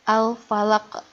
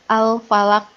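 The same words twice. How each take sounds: First: The final q is released with a bouncing echo. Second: The final q stops flat without a release. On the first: The speaker calls it right. "Yang betul adalah ... ada ke-nya begitu" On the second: The speaker calls it wrong. "kalau tidak memantul, ... itu tidak memantul, itu salah"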